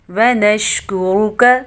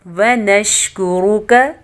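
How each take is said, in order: Both takes have the same delivery.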